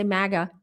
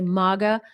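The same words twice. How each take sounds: First: "maga" said MAG-a, short a as in cat; MAGA with flat a. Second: "maga" said MAH-ga, first vowel as in father; MAGA with broad ah. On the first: Showing viewers how they don't say it, short-a "maga". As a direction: say "maga" the American way, first vowel as in bag. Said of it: "I don't say". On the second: Correcting to how they really say it, broad-ah "maga". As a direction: say "maga" the British way, long open ah. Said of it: "I say". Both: Shown as a demonstration.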